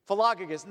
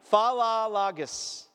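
First: Said in the usual way. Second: "Philologus" drawn out slowly, fa-la-la-gus; slow careful pronunciation. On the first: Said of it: "that's how you pronounce it". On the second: Shown as a demonstration. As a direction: insist on "Philologus", slowly and clearly. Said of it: "I'm telling you, it is".

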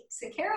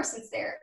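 First: "Sincero" with a K sound, sin-KERR-oh; hard-C pronunciation. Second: "Sincero" with an S sound, sin-SEER-oh; soft-C pronunciation. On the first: Guest unsure of author's surname, tries "Sincero" with a K sound. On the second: Guest offering alternative surname reading, "Sincero" with an S sound. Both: Shown as a demonstration. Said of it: "Sincero or Sincero?".

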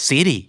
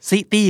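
First: "City" said like "siddy"; American flap T. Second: "City" as "si-tee", T clearly sounded; hard T. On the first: Teacher modelling city for learners, flap T. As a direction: tap the T in "City" as a quick D. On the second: Teacher naming the next word in Thai talk, hard T. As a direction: keep a crisp T in "City". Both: Shown as a demonstration. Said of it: "T ที่อยู่กลางคำแล้วกลายเป็นเสียงตัว D".

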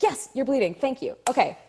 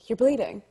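First: High, quick grateful acknowledgement; retold flustered thanks; relieved recognition. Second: Said in the usual way. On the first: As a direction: seize on the prompt, pitched up. Retells grabbing the fed line.

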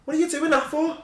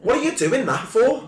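First: High-pitched Scouse pundit rant; Jamie Carragher. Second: High-pitched TV shout; high yell at the TV. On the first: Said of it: "you go full Jamie Carragher". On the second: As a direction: yell at the telly. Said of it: "I'll hit it with a". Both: Retold or imitated.

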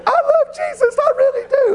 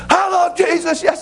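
First: Put-on much higher, squeaky old lady voice; flustered lady squeaking it back much higher; startled lady answering Daniel in a high voice; little old lady. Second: Sudden high call over the booth divider; Daniel jumping up to shout at the lady; Daniel's outburst. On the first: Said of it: "She said". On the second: Retold or imitated. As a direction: pop up and holler it at the next booth.

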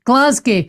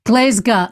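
First: Glasgow as GLAZ-gee, with a "gee" ending; wrong Glasgow pronunciation. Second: Glasgow said as GLEZ-ga; local Glasgow pronunciation. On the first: Host repeats the criticised version, Glasgow as GLAZ-gee. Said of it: "told off, uh, for saying". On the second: Host corrects herself to Abby, Glasgow as GLEZ-ga. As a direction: end Glasgow on a short "ga". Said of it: "There are only two pronunciations". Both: Shown as a demonstration.

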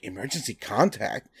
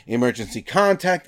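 First: "Emergency contact?" repeated lower and softer in disbelief; incredulous echo. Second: Said in the usual way. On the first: Retold or imitated. Guy at sign-up echoing the form, quietly incredulous. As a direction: echo "Emergency contact?" as if you can't believe it.

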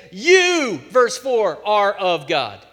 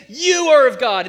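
First: "You" hit as the emphatic subject; stress on You. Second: "You are of God" said loud and high, leaning in; "You are of God" as a ringing declaration; stress on You. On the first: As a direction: lean hard on "You". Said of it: "He didn't have to put the you in there". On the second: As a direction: drive the emphatic "You are of God" home. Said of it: "but he's saying". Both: Shown as a demonstration.

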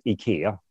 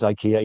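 First: Ikea said as ee-KEH-ah; Swedish pronunciation. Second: Ikea said as EYE-kee-uh; English pronunciation. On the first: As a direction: ikea with ee-kee-ah, stress on the second syllable. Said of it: "In Swedish, it's ikea". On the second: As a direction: ikea with EYE-kee-uh, stress on the first syllable. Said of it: "Well, in English". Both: Shown as a demonstration.

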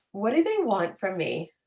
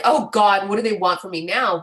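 First: Said in the usual way. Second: Louder, fed-up groan of a question; exasperated. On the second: Shown as a demonstration. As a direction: say it as if utterly tired of demands. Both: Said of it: "not like".

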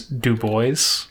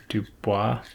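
First: Put-on Du Bois said "doo-BOYZ"; anglicized pronunciation. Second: Dubois said "doo-BWAH", final s silent; French pronunciation. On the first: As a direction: say Du Bois to rhyme with "boys". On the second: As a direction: say Dubois the French way, ending in "wah". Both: Shown as a demonstration. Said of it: "people say it both ways".

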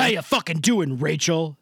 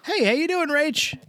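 First: Flat, hard "How you fucking doing, Rachel" with falling end; menacing "How you fucking doing, Rachel"; aggressive greeting. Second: "Hey, how you doing, Rach" high and bright; cheerful lilting "Hey, how you doing, Rach"; friendly greeting. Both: Shown as a demonstration.

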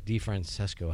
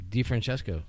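First: DeFrancesco with a plain "s", DeFran-SES-co, a bit quieter; second try at the name. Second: DeFrancesco with a "ch" in the middle, DeFran-CHES-co; first try at the name. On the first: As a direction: swap the "ch" for an "s" in DeFrancesco. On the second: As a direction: say DeFrancesco with a "ch" sound before "esco". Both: Shown as a demonstration. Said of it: "however you say it?".

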